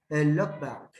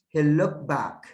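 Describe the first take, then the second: First: The t sound at the end of looked is dropped. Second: The t sound at the end of looked is dropped.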